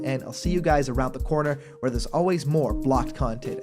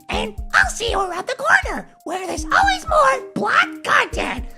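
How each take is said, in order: First: It is said in his normal voice. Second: It is said in a Toad impression.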